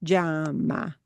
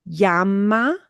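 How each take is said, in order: First: "llama" as JAH-mah, drawn out slowly; little J variant. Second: "Llama" as YAH-mah, drawn out slowly; plain Y variant. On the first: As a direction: begin "llama" with a very short j. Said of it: "Hear that little j". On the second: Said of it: "hear it these different ways". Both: Shown as a demonstration.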